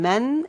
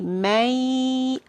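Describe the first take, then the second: First: The word ends with a clear n sound. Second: The n sound is dropped and merged away. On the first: The speaker calls it wrong. "instead of saying man" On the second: The speaker calls it right. "it's going to be may"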